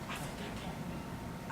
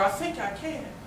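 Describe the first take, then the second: First: It is said quietly. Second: It is said louder still.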